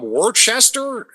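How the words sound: It is said the way out-of-state visitors say it. The speaker is not from the area. The speaker calls it wrong. "people are just like, oh, where are you from, Worcester?"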